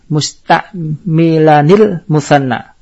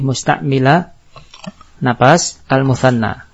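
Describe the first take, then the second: First: The words run together without a pause. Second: The voice stops briefly before the last word. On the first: "kalau disambung musta'milanil" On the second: "Kalau kita waqaf berarti kita berhenti"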